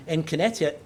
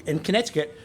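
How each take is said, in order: Both takes have the same delivery.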